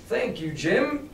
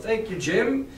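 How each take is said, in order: First: Said in the usual way. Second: "Thank you, Jim" said a bit louder and brighter, rising on "Jim"; quite loudly. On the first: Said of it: "Oh, I still screwed up". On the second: Acted. Doctor covers for Jim with "Thank you, Jim," a bit louder. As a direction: call out "Thank you, Jim" for all to hear. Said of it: "he said quite loudly".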